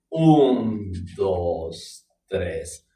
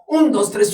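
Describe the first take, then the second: First: The count is spoken at a slow tempo. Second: The count is spoken at a fast tempo. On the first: "¿lo puedes hacer lento? Claro" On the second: "¿y lo puedes hacer rápido?"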